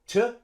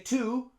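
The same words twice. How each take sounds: First: The vowel is reduced to a schwa. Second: The vowel is a full 'oo' sound. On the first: The speaker calls it right. "We use schwa" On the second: The speaker calls it wrong. "We don't say to"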